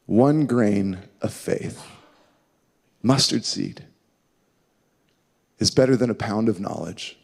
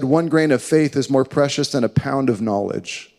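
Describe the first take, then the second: First: Low, soft and slow with long pauses; slow, pondering repeat. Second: Said in the usual way. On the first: Real, not acted. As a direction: let each phrase sink in. Repeats quotation slowly to let it sink.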